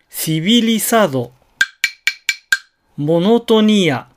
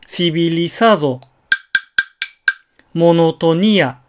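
First: The pitch rises on the second syllable. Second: The first syllables stay low and level. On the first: The speaker calls it wrong. "これが悪い例だと" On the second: The speaker calls it right. "本来はシビリサードモノトニアとなるはず"

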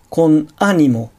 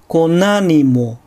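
First: A glottal catch comes before the second word. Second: The words link smoothly with no glottal catch. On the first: The speaker calls it wrong. "母音で始まる単語の最初に正門閉鎖を入れる" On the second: The speaker calls it right. "音節の区切りを正しくとって"

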